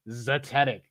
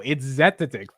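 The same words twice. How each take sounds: First: Zetetic said as zuh-TET-ik, stress on the second syllable; mocking Zetetic as zuh-TET-ik; imitating her pronunciation. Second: Zetetic said as ZET-uh-tik, stress on the first syllable; firm correction, zetetic with first-syllable stress; correcting pronunciation. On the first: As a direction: copy the odd French-ish zuh-TET-ik. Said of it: "She sounds like she's, like, French or something". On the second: Shown as a demonstration. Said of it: "No, dude".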